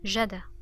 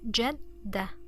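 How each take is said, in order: First: The d sound is short and single. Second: The d sound is long and doubled. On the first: "there was no shadda... we would pronounce dal one time" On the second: "with shadda, it's jadda... Notice the stress on the dal"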